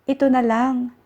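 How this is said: It is said as a statement.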